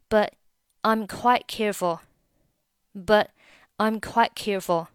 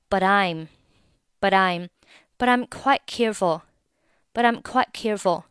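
First: The t of 'but' is left unreleased. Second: The t of 'but' runs into 'I'm'. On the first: "那你就选择but 末尾不发音。" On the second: "如果你语速够快啊，这里but 和I'm 也是可以连读成"

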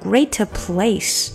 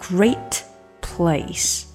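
First: The t of great is released with extra sound. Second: The t of great is held back, not released. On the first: The speaker calls it wrong. "绝对不能把它说成great place" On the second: The speaker calls it right. "可以把那口气吞下去，不要放出来"

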